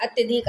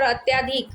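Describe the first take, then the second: First: अत्यधिक with a short "tya"; correct pronunciation. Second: अत्याधिक with a long "tyaa"; incorrect form. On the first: Teacher giving the correct word, short-vowel pronunciation of अत्यधिक. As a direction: say अत्यधिक as "at-yuh-dhik". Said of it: "अत्यधिक तो शुद्ध शब्द होता है". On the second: Teacher showing the misspelt word, long-vowel mispronunciation of अत्याधिक. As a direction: say अत्याधिक as "at-yaa-dhik". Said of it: "यह अशुद्ध शब्द हो जाएगा". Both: Shown as a demonstration.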